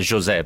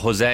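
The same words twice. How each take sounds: First: The name is said the Portuguese way. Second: The name is said in a non-Portuguese way. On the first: The speaker calls it right. "lui si chiamava José perché è portoghese" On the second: The speaker calls it wrong. "sbagliavano sempre a chiamarlo José"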